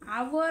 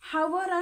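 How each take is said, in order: First: The word begins with a vowel, no h. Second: The word begins with an h sound. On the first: The speaker calls it right. "आवर असा या ठिकाणी याचा उच्चार" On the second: The speaker calls it wrong. "याचा आपण हावर असा उच्चार करतो का?"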